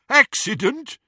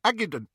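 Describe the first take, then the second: First: High, loud, rising mockery; jeering echo. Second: High, thick-tongued "accident"; mouth full of blood. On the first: Captor echoing Ron's excuse, jeering. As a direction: throw the word back as a jeer. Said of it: "There was more jeering laughter". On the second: Ron excusing himself to captors, mouth full of blood. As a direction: mumble it high through a hurt mouth. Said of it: "his mouth was full of blood". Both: A narrator's reading.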